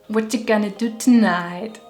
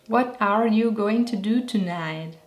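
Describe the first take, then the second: First: The words are reduced and linked together. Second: Every word is said fully and separately.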